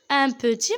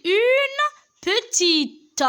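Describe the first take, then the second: First: Said in the usual way. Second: Une petite said slowly and higher, the final t of petite clearly sounded; feminine ending stressed. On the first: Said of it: "Et au féminin". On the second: Shown as a demonstration. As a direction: stretch out une petite, landing on the t. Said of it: "J'ai ajouté le E".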